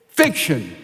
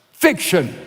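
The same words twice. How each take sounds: First: Said in the usual way. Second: Declared loud like a rubber stamp; stamped verdict. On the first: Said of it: "says Paul". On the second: Shown as a demonstration. Preacher stamping a verdict on the story, loud. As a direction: stamp the word down hard. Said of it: "Stamp it".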